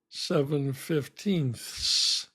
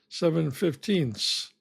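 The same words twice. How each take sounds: First: The final th sound is clearly pronounced. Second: The final th sound is left out. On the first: "I don't think I'm saying seven fifteenths" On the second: "I'm just pretending there's a T H there"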